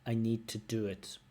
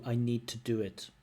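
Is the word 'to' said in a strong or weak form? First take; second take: weak; weak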